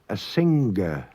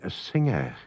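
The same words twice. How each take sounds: First: A hard g is heard after the ng. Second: No hard g is heard after the ng. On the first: This is how a regional dialect used to say it. "the dialect spoken there" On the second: This is the modern way of saying it. "now we say a singer"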